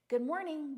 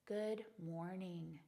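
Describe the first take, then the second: First: It sounds flat, automatic and routine. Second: It sounds warm, deliberate and heartfelt. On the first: The greeting is said out of habit. "go unconscious" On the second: The greeting is meant sincerely. "we give meaning and intention to them"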